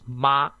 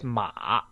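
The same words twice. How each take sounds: First: The pitch stays high and level. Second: The pitch dips down and then rises. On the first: "the smooth tongue" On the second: "the tongue first down then up"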